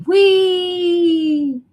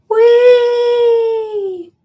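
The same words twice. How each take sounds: First: High, loud playful whee; roller coaster whoop. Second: High, loud gleeful whee like on a ride; roller coaster whoop. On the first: Repeating the viewer's roller coaster joke, playful high whoop. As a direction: squeal it like the drop of a ride. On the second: Mimicking a roller coaster rider for a viewer, gleeful high whoop. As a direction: throw your arms up and squeal it. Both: Pretend.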